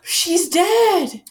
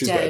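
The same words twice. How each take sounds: First: It is said with a shocked gasp. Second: It is said flatly, without surprise.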